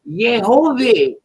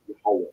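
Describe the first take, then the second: First: The name has an O sound. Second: The name has no O sound. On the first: The speaker calls it wrong. "Where'd the O sound come from?" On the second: The speaker calls it right. "Yahweh is the pronunciation"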